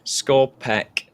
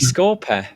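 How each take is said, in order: First: The word ends with a hard k sound. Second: The word ends with a soft th sound. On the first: The speaker calls it right. "I'm just saying it wrong. That's all" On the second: The speaker calls it wrong. "It's just my pronunciation"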